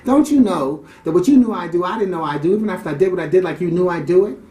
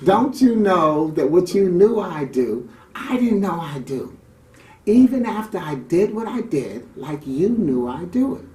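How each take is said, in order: First: It is said at a normal pace. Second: It is said very slowly, drawn out.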